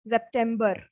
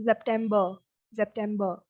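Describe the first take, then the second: First: September ending in a sounded R, 'burr'; wrong September with R. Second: September ending in 'buh', no R; German September, silent R. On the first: Teacher shows learners September wrongly ending in a hard R. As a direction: pronounce the final R of September. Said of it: "So it's not bar". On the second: Teacher corrects to German September, ending softened to 'buh'. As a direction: drop the final R of September. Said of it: "It's September". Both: Shown as a demonstration.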